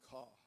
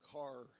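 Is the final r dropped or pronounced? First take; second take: dropped; pronounced. First: The final r is dropped. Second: The final r is pronounced.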